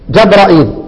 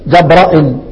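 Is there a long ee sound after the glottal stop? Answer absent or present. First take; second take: present; absent. First: A long ee vowel follows the glottal stop. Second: No long ee vowel follows the glottal stop. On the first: "يبقى عندنا اول قراءة ظهرت لي اهي في البيان" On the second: "والياء يحذف شعبة"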